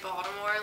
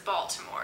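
First: The middle consonant sounds like a D. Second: The middle consonant sounds like a T. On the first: The speaker is from the area. "people from Baltimore say Baltimore like it's spelled with a D" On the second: The speaker is not from the area. "everyone else that's not from the area says Baltimore"

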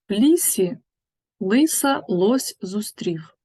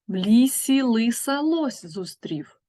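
First: The line is spoken at a slower pace. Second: The line is spoken at a faster pace.

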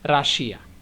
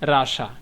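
First: The word is said with three syllables, ending 'shiya'. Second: The word is said with two syllables, ending 'sha'. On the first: This is how Bengali speakers say it. The speaker calls it wrong. "আমরা বাঙালিরা করি যে রাশিয়া" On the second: This is how English speakers say it. The speaker calls it right. "ইংরেজরা উচ্চারণ করে রাশা"

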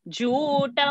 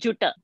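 First: The first vowel is long. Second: The first vowel is short. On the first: The speaker calls it right. "Ju is Dirgha" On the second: The speaker calls it wrong. "It is not Juta"

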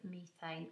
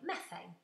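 First: It is said in a British accent. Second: It is said in an American accent.

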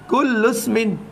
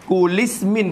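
First: The u runs straight into smin without a break. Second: The u is dropped and kul joins ismin by i. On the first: The speaker calls it right. "Bila kita baca sambung lagu tu" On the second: The speaker calls it wrong. "Kulismin pun tak kena"

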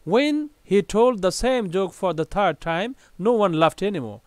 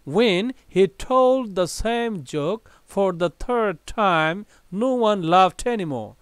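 First: It is read at a very fast pace. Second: It is read at a fast pace.

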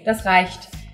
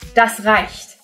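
First: It is said calmly, without aggression. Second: It is said in a stern, authoritarian way.

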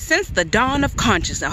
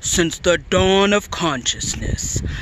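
First: It is read in an ordinary speaking voice. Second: It is read in a big, booming voice.

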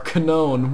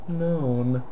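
First: The word starts with a k sound. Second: The word starts with an n sound. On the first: The speaker calls it right. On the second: The speaker calls it wrong.

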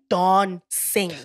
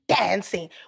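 First: It is said with a South African accent. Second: It is said with an American accent. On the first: "We say dancing" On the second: "In America, they say dancing"

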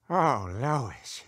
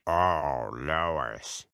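First: It is said in his normal voice. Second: It is said in a much deeper voice.

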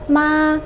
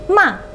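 First: The tone is level and flat. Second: The tone is sharp, like snapping at someone. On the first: It means mother. "nadanya itu flat, datar" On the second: It means being angry or scolding. "kalau nadanya udah kayak orang bentak"

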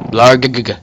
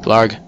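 First: The final g is repeated and drawn out. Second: The final g is short and plain.

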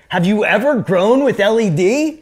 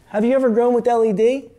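First: It is asked in an annoyed, incredulous way. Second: It is asked as a plain, neutral question.

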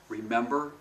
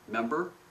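First: All syllables are pronounced fully. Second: The first syllable is dropped. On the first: The speaker calls it right. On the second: The speaker calls it wrong.

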